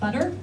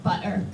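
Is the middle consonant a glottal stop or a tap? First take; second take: tap; glottal stop. First: American accent with a tapped middle t. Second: British accent with a glottal stop for t.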